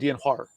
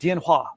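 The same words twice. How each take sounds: First: It is said with an r-colored Beijing sound. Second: It is said plainly, without an r-colored sound. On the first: "I would say dianhua. Like that's my accent" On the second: "she said dianhua"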